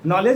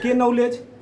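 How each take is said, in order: First: The word starts with no k sound. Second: The word starts with a sounded k. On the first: This is how the word is normally said. "नॉलेज अगर ऐसे नहीं याद हो रहा है" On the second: It follows the spelling to help remember it. "तो के नॉलेज"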